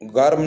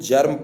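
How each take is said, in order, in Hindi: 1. यह शब्द hard g की आवाज़ से शुरू होता है। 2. यह शब्द j की आवाज़ से शुरू होता है। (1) "यहाँ पे गर्म नहीं पढ़ेंगे" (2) "हम इसको जर्म पढ़ेंगे"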